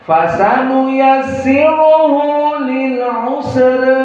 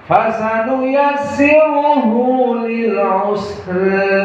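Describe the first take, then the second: The two takes are said the same way.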